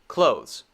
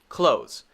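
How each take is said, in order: Both takes have the same delivery.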